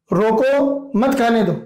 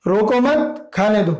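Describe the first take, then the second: First: "रोको", a clear pause, then "मत खाने दो" together; slow, breaking after "रोको" and joining "मत" to "खाने दो". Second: "रोको मत" run together, pause, then "खाने दो"; slow, joining "मत" to "रोको" and breaking before "खाने दो"; pause after मत. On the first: Teacher showing that eating is forbidden, pause after "रोको". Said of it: "खाने के लिए मनाही की जा रही है". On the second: Teacher showing that eating is allowed, pause after "मत". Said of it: "इसमें खाने के लिए स्वीकारोक्ति है". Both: Shown as a demonstration.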